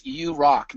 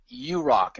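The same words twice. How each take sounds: First: Said in the usual way. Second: You rock with the weight on you, rock falling away; stress on you. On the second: Real, not acted. Host returning Don's compliment, leaning on you. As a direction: lean on you to hand the compliment back. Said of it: "No, Don".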